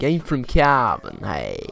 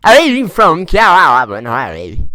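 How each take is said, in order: First: Put-on a slow, light take on a Cavan lad's accent; mild Cavan accent, slow and easygoing. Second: Put-on Cavan accent, very slow and louder, vowels stretched out; exaggerated Cavan lad accent, drawn out loud; hammed-up Cavan accent. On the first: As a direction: drawl it lightly like a lad from Cavan. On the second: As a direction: lay the Cavan accent on thick, dragging every vowel. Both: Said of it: "the way the lads from there talk".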